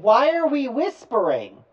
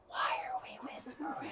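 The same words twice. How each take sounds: First: Loud, high, full voice. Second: Whispering back unthinkingly. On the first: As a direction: say it out loud, breaking the hush. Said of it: "then I said". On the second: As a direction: whisper it, caught up in the hush. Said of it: "And I hear myself say this". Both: Retold or imitated.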